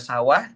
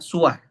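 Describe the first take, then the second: First: The first vowel is an a sound. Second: The first vowel is a u sound. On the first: "bisa dibaca sawah" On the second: "bisa dibaca suah"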